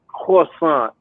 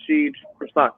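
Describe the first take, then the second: First: Croissant drawn out as "kwah-SAHN"; affected French correction. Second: Said in the usual way. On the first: Retold or imitated. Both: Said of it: "I mean, croissant".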